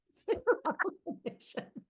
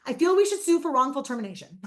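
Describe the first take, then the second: First: Laughing whisper. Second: Deadpan son. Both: Retold or imitated.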